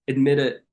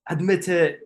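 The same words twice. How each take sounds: First: It is said in a normal accent. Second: It is said in a British accent.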